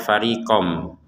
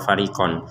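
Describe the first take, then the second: First: The word ends with an m sound. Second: The word ends with a clear n sound. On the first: The speaker calls it right. "kita baca farikom" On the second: The speaker calls it wrong. "farikon itu kan jelas"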